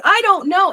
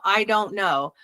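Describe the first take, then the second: First: High, raised mock yell; retold yell. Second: Said in the usual way. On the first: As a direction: cry it out as a re-enacted yell. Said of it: "as soon as I yell".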